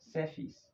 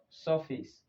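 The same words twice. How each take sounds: First: The vowel is a long 'er'. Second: The vowel is not a long 'er'. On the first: The speaker calls it right. "but surface" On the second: The speaker calls it wrong. "not surface"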